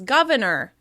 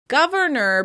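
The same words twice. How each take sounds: First: The first R sound is dropped. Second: The first R sound is pronounced.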